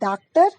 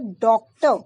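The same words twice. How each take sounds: First: The first vowel is an open 'aa' sound. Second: The first vowel falls between 'aa' and 'o'. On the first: The speaker calls it wrong. "अगर मैं हिंदी के हिसाब से इसको बोलूंगी" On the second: The speaker calls it right. "ये अंग्रेजी की ध्वनि है ओ। आ और ओ के बीच की स्थिति।"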